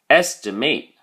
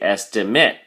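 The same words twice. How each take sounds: First: The last syllable has a hard, full A sound. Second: The last syllable has a soft, weak A sound. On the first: It is used as a verb. "If you're using it as a verb, then the A sound becomes a lot harder" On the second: It is used as a noun. "If you're using it as a noun, we say estimate"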